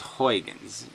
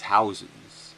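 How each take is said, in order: First: The name does not sound like house plus sense. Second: The name sounds like house plus sense. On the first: This is how most people say it. "Everybody says Huygens" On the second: This is how a Dutch speaker says it. "he says it's Hausens"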